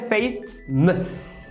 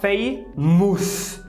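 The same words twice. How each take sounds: First: The second vowel is a reduced schwa. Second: The second vowel is a full vowel. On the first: The speaker calls it right. "quando na verdade é famous" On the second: The speaker calls it wrong. "Você vê um O U ali, você quer falar famous"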